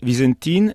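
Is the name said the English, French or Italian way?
Italian. The name is pronounced the Italian way. "À l'italienne c'est Vizentin"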